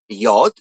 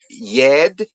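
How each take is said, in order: First: The vowel in the word is an 'o'. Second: The vowel in the word is an 'e'. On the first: The speaker calls it right. "It's pronounced yod" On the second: The speaker calls it wrong. "There's no yed. It's not pronounced yed"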